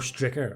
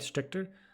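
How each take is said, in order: First: The name is said without a t: Stricker. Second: The name is said with a t: Stricter. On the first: The speaker calls it right. "Stricker, yeah" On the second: The speaker calls it wrong. "Am I saying that right?"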